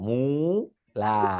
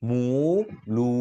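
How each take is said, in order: First: The second vowel differs from the first, an open a. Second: Both vowels are the same rounded u sound. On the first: "একবার গুল, একবার চ্যাপ্টা" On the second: "মুখের অবস্থা সমান, এটা সহজ।"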